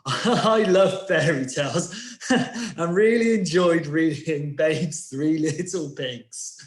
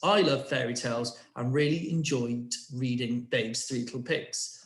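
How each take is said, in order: First: It is said while laughing. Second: It is said in a plain voice.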